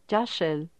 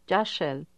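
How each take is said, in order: No difference in how they are said.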